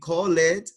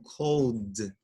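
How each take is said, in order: First: The ending is pronounced as an extra syllable. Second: The ending is a bare d sound. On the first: The speaker calls it wrong. "No cometas el error de decir call it" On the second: The speaker calls it right. "sino cold"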